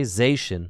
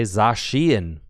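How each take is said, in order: First: Zacian said "ZAY-shun"; two syllables in Zacian, rhyming with nation; mistaken pronunciation. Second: Zacian said "zah-SHEE-en"; three syllables in Zacian, stress on SHEE; official pronunciation. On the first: Streamer showing what he can't say, Zacian mispronounced as ZAY-shun. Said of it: "Can't just say Zacian". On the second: Streamer explaining his obligation, official Zacian as zah-SHEE-en. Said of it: "I have to say Zacian". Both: Shown as a demonstration.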